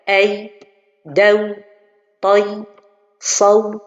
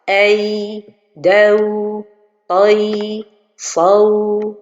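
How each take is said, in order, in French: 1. Les voyelles sont courtes, pas allongées. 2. Les voyelles sont allongées, longues. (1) "la prononciation correcte" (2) "مده, comme ça ... j'ai donné beaucoup de temps"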